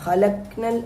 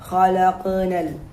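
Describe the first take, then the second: First: The q sound is stopped without an echo. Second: The q sound is released with an echo. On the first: The speaker calls it wrong. "എന്ന് പറയാതെ" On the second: The speaker calls it right. "അതും മുഴക്കി പറയുക"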